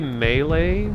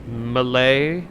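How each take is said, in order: First: It does not sound like the nationality Malay. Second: It sounds like the nationality Malay. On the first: The speaker calls it right. "I just say melee" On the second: The speaker calls it wrong. "It isn't Malay, isn't that like a nationality?"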